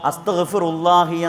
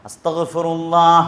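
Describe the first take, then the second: First: The word ends with an 'i' vowel. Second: The word ends with an 'a' vowel. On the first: The speaker calls it wrong. "അപ്പോൾ അത് രണ്ടും തെറ്റാണ്" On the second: The speaker calls it right. "ഹാഇന് ഫത്ഹ് കൊടുത്തുകൊണ്ട് തന്നെ ഉച്ചരിക്കാൻ"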